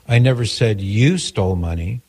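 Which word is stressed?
you. The stress is on the word you.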